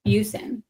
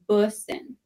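First: "Busin" with a long yoo, BYOO-sin; old wrong pronunciation. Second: "Bussin" with the short vowel of bush; correct name pronunciation. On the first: Retold or imitated. Guest recalling what they called the boyfriend, "Busin" as BYOO-sin. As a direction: say "Busin" as if it began like "beauty". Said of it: "I had been saying it wrong". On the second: Shown as a demonstration. Guest correcting the host on the surname, "Bussin" with the bush vowel. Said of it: "No, it's".

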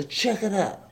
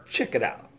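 First: "check it out" said high in a silly voice; high put-on voice. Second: Said in the usual way. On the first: Shown as a demonstration. Host recommending the film, silly high repeat. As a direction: repeat it as a goofy character.

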